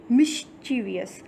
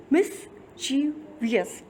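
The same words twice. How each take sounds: First: Said in the usual way. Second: मिस्चीवियस said slowly, each syllable spelled out clearly; careful slow pronunciation. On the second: Shown as a demonstration. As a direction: stretch out मिस्चीवियस so every syllable can be heard. (मिस्चीवियस को धीरे-धीरे, हर syllable साफ़ बोलते हुए) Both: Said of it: "three syllable है इस".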